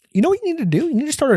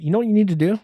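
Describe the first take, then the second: First: Much higher, sing-song know-it-all question; mock someone handing out smug advice; mock advice giver. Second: Said in the usual way. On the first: Mocking people who tell him what to do, high and sing-song.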